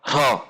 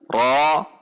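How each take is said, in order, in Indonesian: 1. Suku kata itu diucapkan dengan dorongan udara. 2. Suku kata itu diucapkan tanpa dorongan udara. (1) "Tidak dengan cara ro, ro, ro. Tidak dengan mendorong udara" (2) "dibunyikan dengan tidak mendorong udara"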